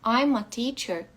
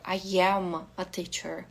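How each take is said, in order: First: 'I am' is contracted into one syllable. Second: 'I am' is said as two full words. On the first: It is the usual, neutral way to say it. "seria um jeito mais fácil de dizer" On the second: It sounds like extra emphasis is being given. "parece que eu tô dando uma ênfase maior"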